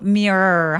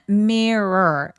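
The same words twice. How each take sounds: First: The word is one syllable with a long R. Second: The word is said with two syllables. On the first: "첫 번째 R을 그냥 길게 발음해요" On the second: "두 개의 음절이 맞아요"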